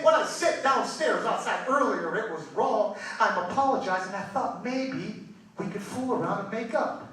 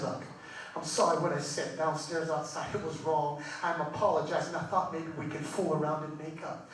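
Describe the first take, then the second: First: Said in the usual way. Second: Low, soft, sheepish husband; subdued, low-voiced acted apology; quiet apology. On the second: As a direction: apologize softly under your breath in bed. Husband's first, quiet bedtime apology.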